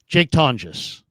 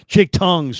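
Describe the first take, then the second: First: The G in the surname sounds soft, like J. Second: The G in the surname sounds hard, like tongues. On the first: The speaker calls it right. "ton just" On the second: The speaker calls it wrong. "not tongues"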